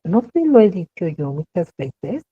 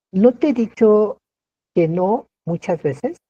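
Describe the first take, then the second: First: Reproachful rhetorical question; questioning tune. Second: Mock reproach. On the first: Teacher showing the interrogative tune to students, questioning. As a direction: ask it as a rhetorical question, rising. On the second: Teacher playing an exasperated speaker, mild reproach. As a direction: scold as if repeating yourself. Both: Shown as a demonstration. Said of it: "volvemos a cuestionar y a preguntar".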